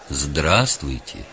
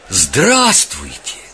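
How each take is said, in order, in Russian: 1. Произносится мягко и спокойно. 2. Произносится с большой радостью. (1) "Мягко и спокойно" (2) "Так радостно"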